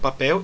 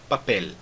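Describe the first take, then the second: First: The final L sounds like a U. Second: The final L is a clear L. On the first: "eu falo papel" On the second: "e não papel"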